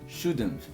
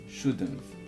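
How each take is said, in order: The two takes are said the same way.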